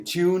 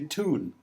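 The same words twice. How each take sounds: First: It is pronounced in an Irish accent. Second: It is pronounced in a New York accent. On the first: "We say" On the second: "they say"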